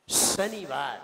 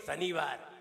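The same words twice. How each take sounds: First: शनिवार with a forceful long hissed श, falling low; whistled श. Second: शनिवार with a short, light s, low; weak श. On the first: Teacher drills the students, strong whistling श in शनिवार. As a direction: lean hard on the sh of शनिवार. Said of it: "सीटी तो निकालनी ही पड़ेगी". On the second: Teacher drills the day, short unwhistled sibilant in शनिवार. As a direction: say शनिवार with no whistle. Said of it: "ये नहीं मालूम हम क्या बोल रहे हैं". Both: Shown as a demonstration.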